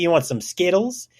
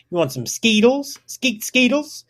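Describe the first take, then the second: First: Said in the usual way. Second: Higher-pitched "Skeetles" with a long ee; "Skeetles" squeaked out high; silly mispronunciation. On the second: Pretend. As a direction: say "Skeetles" with ee for the short i, playfully. Silly twist on candy name.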